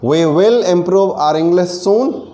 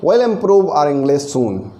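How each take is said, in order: First: 'We will' is said as two full words. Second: 'We will' is contracted to one syllable.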